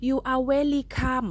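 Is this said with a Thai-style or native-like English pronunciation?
Thai-style. It is pronounced in a Thai-style English way. The speaker calls it wrong. "ตอนเด็กๆอย่าว่าเด้อหนูออกเสียง"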